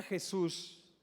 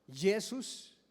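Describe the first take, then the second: First: Said in the usual way. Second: Jesús begun with a y sound, "YEH-soos"; foreign pronunciation. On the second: Shown as a demonstration. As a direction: say Jesús as "Yesus", not with the Spanish j. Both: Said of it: "no se pronuncia igual".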